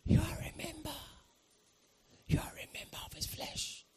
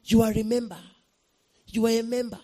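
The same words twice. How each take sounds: First: Soft voiceless murmur of revelation; eerie whisper. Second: Louder, firmly voiced repeat of a revelation; raised-voice declaration; voiced message. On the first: Retold or imitated. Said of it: "felt someone just whisper to me". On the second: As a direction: say it out strongly, no longer hushed. Repeats the whispered message aloud.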